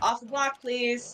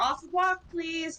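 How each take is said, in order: First: It sounds flat and deadpan. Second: It sounds sweet and polite. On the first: "like just kind of straight deadpan" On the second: "sounded sweet and polite"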